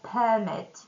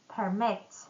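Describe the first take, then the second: First: The stress is on the first syllable. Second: The stress is on the second syllable. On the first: It is a noun. "If we put a stress on the first syllable" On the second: It is a verb. "a verb when we stress the second syllable"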